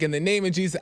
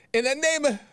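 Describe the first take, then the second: First: Said in the usual way. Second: Mock yell. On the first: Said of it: "So I wasn't yelling it". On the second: Shown as a demonstration. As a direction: act out yelling it, pitched way up. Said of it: "I wasn't yelling it, like".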